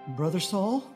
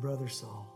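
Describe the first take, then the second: First: It sounds hesitant and afraid, like a question. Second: It sounds firm and confident, like a greeting. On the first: The speaker doubts the man is really a brother. The speaker calls it wrong. "he probably didn't say it that way. I'm just thinking if he would be a little bit of afraid" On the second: The speaker fully accepts the man as a brother. The speaker calls it right. "He walked in there, no doubt, laid hands on him and said"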